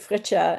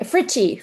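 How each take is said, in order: First: The name is said with a German pronunciation. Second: The name is said in the speaker's usual pronunciation. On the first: "when I go to Germany, people pronounce it"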